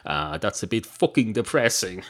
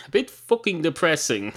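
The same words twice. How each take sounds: First: Said in the usual way. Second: "bit" hit higher and harder; "bit" punched, the words echoed with emphasis; stress on bit. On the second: Acted. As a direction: lean on "bit", pitch up, mock dismay. Narrator repeats the barman's words.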